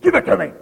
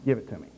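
First: It is said in a light, teasing tone. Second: It is said in a firm, stern tone. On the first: The speaker is only playing. "I say that like, give it to me. And he won't, boy. He'll just growl and he knows I'm playing" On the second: The speaker really means it. "he knows by the tone of voice whether you're serious or not"

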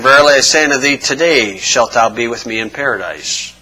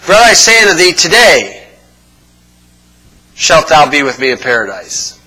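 First: The pause comes right after thee. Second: The pause comes right after today.

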